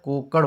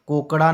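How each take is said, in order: First: कोकड़ ending cut short on the consonant; correct form said aloud. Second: कोकड़ा ending on a full final aa; wrong form said aloud. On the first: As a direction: clip कोकड़ with no vowel at the end. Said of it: "सही शुद्ध रूप कोकड़ा का क्या होता है". (कोकड़ बिना अंतिम 'आ' के, सही रूप) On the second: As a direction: say कोकड़ा with a clear aa at the end. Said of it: "कोकड़ा नहीं होता है". (कोकड़ा अंत में 'आ' के साथ, गलत रूप) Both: Shown as a demonstration.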